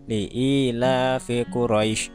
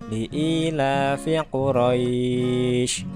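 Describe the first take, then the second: First: The last vowel is cut short, not drawn out. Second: The last vowel is drawn out long and soft. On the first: The speaker calls it wrong. "Jadi bukan dibaca" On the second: The speaker calls it right. "Maka dipanjangkan tapi lunak"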